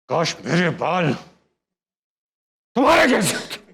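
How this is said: It is said in an angry, harsh voice. "गुस्से में।"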